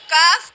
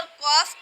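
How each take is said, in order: First: کاف with a thin front k and open vowel; light kaf. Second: قاف with a back q and rounded vowel; heavy qaf. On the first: (باریک آواز میں کاف) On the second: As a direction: say قاف thick, as "qawf". (موٹی آواز میں قاف) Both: Shown as a demonstration. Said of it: "کاف اور قاف کی ادائیگی میں ہم کس طرح سے فرق".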